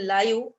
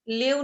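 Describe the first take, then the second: First: The vowel is long, rhyming with five. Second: The vowel is short, rhyming with give. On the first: The speaker calls it right. "त्याला आपण लाईव्ह असं म्हणतो कारण तो adjective म्हणून आलेला आहे" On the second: The speaker calls it wrong. "लिव्ह न म्हणता"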